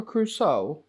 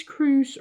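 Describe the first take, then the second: First: "Crusoe" in two syllables, ending in soh; pronounced Crusoe. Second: "Cruise" as one syllable, like a sea cruise; pronounced Cruise. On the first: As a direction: add a long oh to end "Crusoe". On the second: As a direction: say "Cruise" with no final oh. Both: Shown as a demonstration. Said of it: "do you pronounce this".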